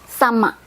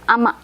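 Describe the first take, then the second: First: The word begins with a clear S sound. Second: The S is dropped; it begins with a vowel. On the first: It is the formal way to say it. "If you want to say same in a formal way" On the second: It is the informal, slang way to say it. "we say it with silent S"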